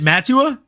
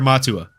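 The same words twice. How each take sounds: First: The first vowel is short, as in 'mat'. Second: The first vowel is open, as in 'ma'. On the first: "M A T T Ua" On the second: "Ma M A H Tua"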